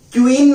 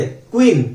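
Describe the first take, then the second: First: क्वीन said as kyu-een, a y-glide after the k; teacher demonstrates the wrong way, क्वीन as kyu-een; wrong Q sound. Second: क्वीन said as kween, a plain क sound with no y-glide; teacher models the correct क्वीन, kween; right Q sound. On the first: Teacher to students, showing the wrong reading, क्वीन as kyu-een. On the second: Teacher to students, modelling the right क्वीन as kween. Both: Shown as a demonstration. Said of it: "क्वीन नहीं बोलते".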